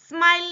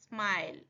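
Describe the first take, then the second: First: The start of the word is said heavily. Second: The start of the word is said lightly. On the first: The speaker calls it wrong. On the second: The speaker calls it right.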